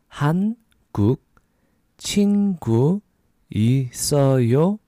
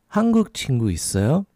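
First: It is said at a slower pace. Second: It is said at a faster pace.

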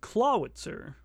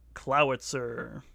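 First: The first syllable sounds like 'claw'. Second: The first syllable does not sound like 'claw'. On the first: The speaker calls it wrong. "Not Clawitzer" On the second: The speaker calls it right. "whose name is Clowitzer"

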